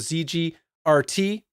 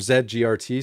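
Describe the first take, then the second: First: The letter Z is said the American way. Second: The letter Z is said the Canadian way.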